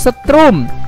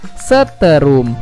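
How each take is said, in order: First: The word has two syllables, with no vowel after t. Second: The word has three syllables, with e after t. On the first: The speaker calls it right. "itu kata bakunya tanpa E" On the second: The speaker calls it wrong. "kata tidak bakunya adalah seterum"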